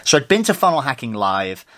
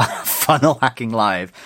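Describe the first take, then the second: First: Said in the usual way. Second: Slow, deliberate funnel hacking live; careful correction. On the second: Real, not acted. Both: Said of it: "Just nearly swore".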